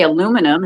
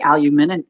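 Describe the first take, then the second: First: Aluminum as a-LU-mi-num, american style; American pronunciation. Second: Aluminum as al-yu-MIN-ium, british style; aluminum tried the British way; British pronunciation. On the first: Shown as a demonstration. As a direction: say aluminum with four syllables, stress on LU. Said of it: "we say aluminum". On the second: Retold or imitated. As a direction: say aluminum with five syllables, stress on MIN. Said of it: "they say aluminum".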